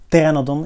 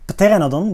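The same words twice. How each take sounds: First: The word begins without any P sound. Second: The word begins with a pronounced P sound. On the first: This is the English pronunciation. "in English the P should be silent" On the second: This is the Latin pronunciation. "I pronounce it Pteranodon with the P"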